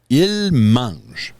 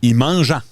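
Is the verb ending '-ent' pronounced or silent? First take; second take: silent; pronounced. First: The verb ending is silent. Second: The verb ending is sounded out.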